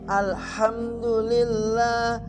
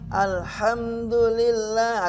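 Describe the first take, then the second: Both takes have the same delivery.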